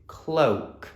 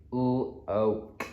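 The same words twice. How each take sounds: First: Said in the usual way. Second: "Cloak" split into k, l, oa, k; sounded out. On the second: Shown as a demonstration. Teacher asking children to sound it out, segmented sounds. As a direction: say "Cloak" slowly, each sound apart. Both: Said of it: "Have a go at sounding it out".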